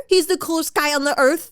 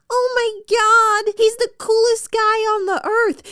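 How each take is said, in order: First: Raised-pitch sarcastic parroting; exasperated, scornful repeat; mocking echo. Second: Hammed-up awe, pitched way up; mock gushing. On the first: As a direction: throw the gushing words back mockingly. Sarcastic echo of the gushing quote. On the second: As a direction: imitate a starry-eyed romance heroine. Mock quote of smitten romance heroine.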